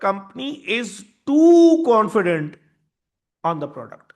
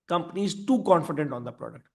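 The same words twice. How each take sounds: First: Slow build to a loud, drawn-out "too"; stress on "too". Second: Said in the usual way. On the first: Shown as a demonstration. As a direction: hit "too" hard and draw it out. Key definition, then repeated plainly.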